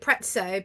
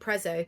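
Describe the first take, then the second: First: The middle consonant sounds like 'ts', as in pizza. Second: The middle consonant sounds like a plain 'z'. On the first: "it's spelt like pizza and it's Italian" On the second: "most people call it Prezzo"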